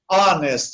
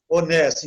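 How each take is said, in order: First: "honest" starting on the vowel, ON-est; English "honest" with no H sound; silent H. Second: Said in the usual way. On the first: Shown as a demonstration. Teacher showing an exception, "honest" with silent H. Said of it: "As, as exceções". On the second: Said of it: "você pronuncia a vogal".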